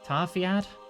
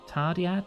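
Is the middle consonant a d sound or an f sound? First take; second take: f sound; d sound. First: The middle consonant is an f sound. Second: The middle consonant is a d sound.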